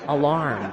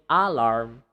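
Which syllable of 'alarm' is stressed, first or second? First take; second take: second; first. First: The stress is on the second syllable. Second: The stress is on the first syllable. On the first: The speaker calls it right. "So alarm" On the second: The speaker calls it wrong. "So you don't say alarm"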